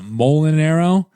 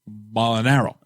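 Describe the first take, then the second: First: The name is said in a natural voice. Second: The name is said in an imitated voice. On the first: This is how the name is normally pronounced. The speaker calls it right. "usually it's pronounced uh" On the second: This is how someone else mispronounced the name. The speaker calls it wrong. "And he was like"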